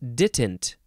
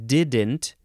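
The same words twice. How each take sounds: First: The middle consonant is a T sound. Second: The middle consonant is a D sound. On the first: "with a T sound in the middle instead of a D" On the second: "Instead of didn't"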